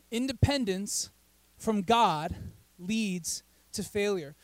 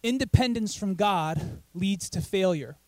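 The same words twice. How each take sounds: First: "Independence", "from God", "leads to failure" set apart by pauses; slow "Independence from God leads to failure" in three separate pieces; deliberate emphasis. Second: Said in the usual way. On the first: Real, not acted. Preacher repeats his point to the congregation, "Independence / from God / leads to failure" slowly spaced.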